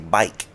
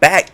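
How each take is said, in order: First: The vowel is an 'ike'-like diphthong. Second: The vowel is a plain short 'a' sound. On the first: The way locals from that city say it. "they say" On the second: The usual way to say the word. "instead of saying"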